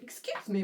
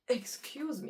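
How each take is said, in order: First: It is said in a light, casual way. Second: It is said in a shocked, heartbroken way.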